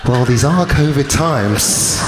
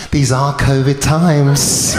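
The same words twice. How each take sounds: First: Slow, resigned acceptance with a laugh; resigned shrug. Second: Slow, amused line with a laugh; drawn-out teasing excuse; smug excuse. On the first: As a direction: shrug it off, drawn out and amused. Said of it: "I thought to myself". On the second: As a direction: savour it, laughing. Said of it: "She goes". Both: Retold or imitated.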